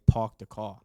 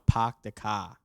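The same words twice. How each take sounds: First: Staten Island accent, "Park" said "pawk" with a rounded aw; his own Staten Island version of "Park the car". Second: Put-on Boston accent, "car" said "cah" with no r; light Boston accent on "Park the car". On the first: Shown as a demonstration. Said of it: "I say". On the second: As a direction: drop the r's the Boston way. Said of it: "somebody from Boston will say".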